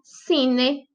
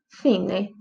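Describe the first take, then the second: First: The first sound is a hissing S. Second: The first sound has the tongue between the teeth. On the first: This is how it is said in Latin America. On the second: This is how it is said in Spain. "Mas na Espanha é"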